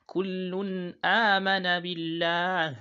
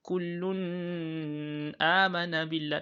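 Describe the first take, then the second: First: Slow, higher, louder chanted "Kullun amana billah", clear n released into long "a"; nun without emphasis. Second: Slow, higher "kullun amana billah" with a long-held final n in "kullun"; wrong emphasised nun. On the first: Teacher showing the right way, unemphasised n in "Kullun amana billah". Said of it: "So it's right". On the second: Teacher demonstrating the mistake, over-held n in "kullun amana billah". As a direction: hang on the n of "kullun" before "amana". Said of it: "That's wrong". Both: Shown as a demonstration.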